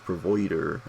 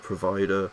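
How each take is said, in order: First: It is said in a West Country accent. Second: It is said in a neutral accent. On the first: "he just goes provider" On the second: "Instead of provider"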